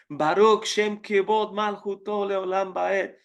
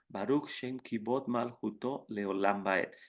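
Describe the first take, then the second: First: It is said in a loud, forceful voice. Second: It is said in a low, quiet voice. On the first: This day is proclaimed as different from the rest of the year. "decimos a tono alto del mismo, uh, con la misma fuerza" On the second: The redemption is present but not yet complete. "decimos Baruch en tono bajo"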